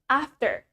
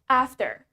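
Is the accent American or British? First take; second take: American; American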